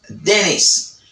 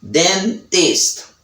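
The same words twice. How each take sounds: First: The T after N is dropped, American style. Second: The T after N is pronounced, British style. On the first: "Americans accent, they said dentist" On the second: "and British accent, they said dentist"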